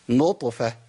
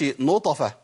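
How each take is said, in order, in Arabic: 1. صوت الطاء فيه ارتداد خفيف فقط. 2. صوت الطاء يتبعه حركة فتحة كاملة. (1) "لا، نطفة" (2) "ما اقولش نطفة"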